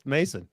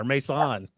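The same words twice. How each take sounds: First: Said in the usual way. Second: Mason said as "may-SAHN"; alternate pronunciation. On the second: Shown as a demonstration. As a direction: open up Mason's ending to "sahn". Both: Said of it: "Mason or Mason".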